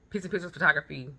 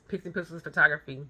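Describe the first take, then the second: No difference in how they are said.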